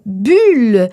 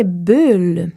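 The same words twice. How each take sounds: First: Bulle with a tight u; closed u in bulle. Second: Bulle with an open u, slow. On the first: Teacher showing the closed u in bulle. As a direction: say bulle with rounded, nearly shut lips. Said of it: "On ne dira pas bulle". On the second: Teacher giving the open u in bulle. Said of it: "mais bien bulle". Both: Shown as a demonstration.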